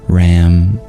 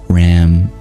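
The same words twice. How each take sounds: No difference in how they are said.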